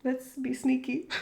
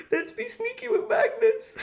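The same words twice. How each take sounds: First: Said in the usual way. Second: Higher, laughing voice; giggly scheming. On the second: Real, not acted. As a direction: giggle through the sneaky plan. Repeats plan, giggling.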